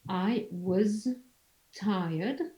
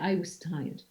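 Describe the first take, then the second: First: The word 'was' ends with a voiced z sound. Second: The word 'was' ends with a voiceless s sound. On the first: "you write I was with a Z sound" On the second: "devoice the z sound into a s sound"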